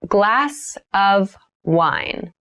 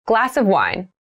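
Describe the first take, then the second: First: Glass of wine stretched slowly; slow careful repeat. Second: Said in the usual way. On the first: Shown as a demonstration. Teacher models a drink phrase for learners, slowly. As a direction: lay out each word slowly for learners. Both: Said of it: "vocabulary drill, repeated for learners".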